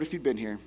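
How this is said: It is said in a matter-of-fact tone.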